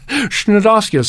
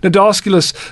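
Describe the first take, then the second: First: The word begins with an extra consonant before n. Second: The word begins with an n sound only. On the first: The speaker calls it wrong. "I was gently corrected years ago by a good friend when he heard me saying Schnodosculus" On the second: The speaker calls it right. "starts with a silent C"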